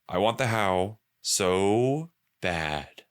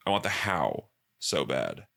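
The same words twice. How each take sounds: First: Slow, drawn-out longing; slow emphatic. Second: Said in the usual way. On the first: Shown as a demonstration. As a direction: stretch every word with craving.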